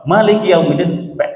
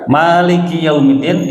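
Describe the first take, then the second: First: The first vowel of Maliki is short. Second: The first vowel of Maliki is long. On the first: It means king of the Day of Judgment. "maknya pendek" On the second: It means owner of the Day of Judgment. "itu adalah pemilik"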